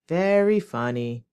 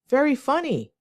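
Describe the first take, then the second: First: It is said in a sarcastic tone. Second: It is said in a sincere, genuine tone. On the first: The speaker does not find it funny. "The second one will be with a sarcastic tone" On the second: The speaker really finds it funny. "The first one will be a genuine tone"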